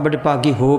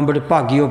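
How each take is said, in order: First: The h sound of the last word is pronounced. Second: The h sound of the last word is dropped. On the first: The speaker calls it right. "ਉੱਥੇ ਪਾਠ ਤਾਂ ਬੜੇ ਭਾਗੀ ਹੋ ਪਾਠ ਹੈ" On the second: The speaker calls it wrong. "ਕਈ ... ਪੜ੍ਹੀ ਜਾਂਦੇ ਨੇ ... ਸੋ ਵੀ ਉਹ ਗਲਤ ਉਚਾਰਨ ਹੈ"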